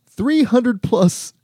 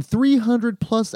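First: "three hundred plus" drawn out high and slow; slow emphasis. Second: Said in the usual way. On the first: Acted. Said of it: "slowed repeat". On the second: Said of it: "repeats with emphasis".

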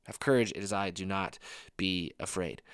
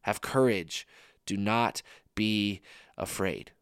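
First: Softer, slowing repeat of the promise; a quiet, tender echo of Jesus' words; soft reassurance. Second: Soft and slow, drawn-out do not be afraid; slow, hushed, reassuring Jesus; slow tender reassurance. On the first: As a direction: let it sink in gently. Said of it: "repeats the line softly". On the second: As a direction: comfort a frightened friend. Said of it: "repeats line slowly and softly". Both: Shown as a demonstration.

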